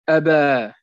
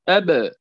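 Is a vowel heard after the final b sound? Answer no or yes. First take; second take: yes; no. First: The final b is followed by an a vowel. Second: The final b bounces with no following vowel. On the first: The speaker calls it wrong. "ما نقولش أبا أبا، فخطأ هذا" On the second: The speaker calls it right. "أب دون فتح"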